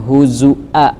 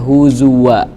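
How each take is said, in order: First: The middle consonant is a glottal stop. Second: The middle consonant is a w sound. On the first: "pakai hamzah" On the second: "Hafs dia membaca huzuwa pakai waw"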